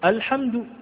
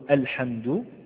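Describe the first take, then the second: First: The opening hamza is heavy and emphatic. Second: The opening hamza is light and easy. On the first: The speaker calls it wrong. "لا نقول الحمد" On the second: The speaker calls it right. "بيسر وبساطة"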